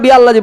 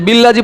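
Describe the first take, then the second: First: The glottal stop is pronounced before 'alladhi'. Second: The glottal stop is dropped and the words join. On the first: The word itself is named, not its meaning. The speaker calls it right. "যদিও ওয়াসলি কিন্তু এখন কতি" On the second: The word is treated for its meaning. The speaker calls it wrong. "এই জন্য বিল্লাজি নয়"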